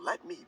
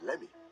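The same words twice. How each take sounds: First: Both words are said fully and separately. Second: The two words are run together and reduced.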